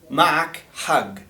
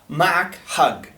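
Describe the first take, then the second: First: The last word ends in a hard g. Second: The last word ends in a hard g.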